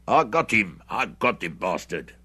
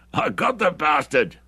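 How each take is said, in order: First: A louder triumphant shout that eases off; excited shout. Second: A much higher, louder, slow gloating cry; rejoicing. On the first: Hendry boasts of the shot, excited shouting. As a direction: crow over the kill, loud at first. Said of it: "shouting with hoarse excitement". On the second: Hendry gloats to Bruce about the kill, rejoicing. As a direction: savour the kill out loud. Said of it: "rejoiced Hendry". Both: A narrator's reading.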